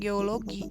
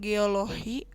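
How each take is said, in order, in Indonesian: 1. Bunyi sebelum i terakhir adalah g. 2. Bunyi sebelum i terakhir adalah h. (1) "seharusnya dilafalkan geologi" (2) "diubah menjadi h"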